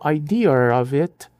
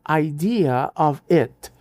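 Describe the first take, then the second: First: An R sound links idea and of. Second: The words are joined without an R sound.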